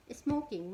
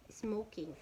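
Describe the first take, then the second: First: Smoking said louder and higher, as a heading; emphatic heading. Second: Said in the usual way. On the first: Shown as a demonstration. Teacher to class, announcing the topic loudly. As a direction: announce Smoking firmly to the room.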